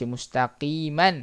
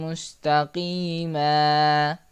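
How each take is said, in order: First: The word ends with an n sound. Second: The word ends with a long vowel. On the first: The speaker calls it wrong. "Jangan baca mustaqiman" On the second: The speaker calls it right. "dibaca dengan bunyi satu baris"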